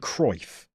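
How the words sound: The name is said with an English pronunciation. This is the usual way it is said in England. "in England, we normally say Johan Cruyff"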